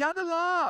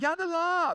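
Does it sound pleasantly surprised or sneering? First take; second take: surprised; surprised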